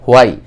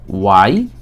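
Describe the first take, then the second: First: "হোয়াই" with a sounded H, ho-ai; common mispronunciation. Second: "ওয়াই" with a pure W, no H; corrected pronunciation. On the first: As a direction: open "হোয়াই" on a strong H. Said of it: "আমরা হোয়াই উচ্চারণ করব না". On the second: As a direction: glide straight into "ওয়াই" from rounded lips. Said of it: "এটার উচ্চারণ হবে ওয়াই". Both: Shown as a demonstration.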